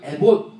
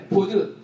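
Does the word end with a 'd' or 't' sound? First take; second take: t; d. First: It ends with a clipped 't' stop. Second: It ends with a clear 'deu' syllable. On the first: This is the Korean Bible's rendering of the word. "에봇 이렇게 한글 개역 성경은 그대로 발음 나는 대로 기록을 한 거죠" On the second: This is the original Hebrew pronunciation. "히브리어로 에포드 이렇게 발음하는 단어예요"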